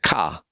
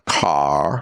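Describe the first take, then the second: First: The final R is dropped, New England style. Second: The final R is pronounced.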